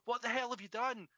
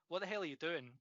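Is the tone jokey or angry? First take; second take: angry; jokey. First: It is said in an angry, shouting tone. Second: It is said in a jokey, playful tone.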